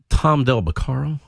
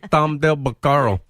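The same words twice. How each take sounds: First: It is said in a plain, normal voice. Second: It is said in a whiny put-on accent.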